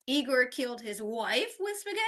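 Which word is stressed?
wife. The word wife carries the main stress. The victim was his wife, not his mother. "not his mom"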